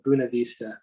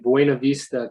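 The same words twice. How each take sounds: First: It is said with the local Colorado pronunciation. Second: It is said without the local Colorado pronunciation. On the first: "a lot of people up here call it Buena Vista" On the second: "I'm in Buena Vista"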